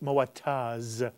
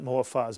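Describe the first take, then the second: First: The middle consonant is a t sound. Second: The middle consonant is an f sound. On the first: The speaker calls it right. "It's Moataz" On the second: The speaker calls it wrong. "not Moafaz"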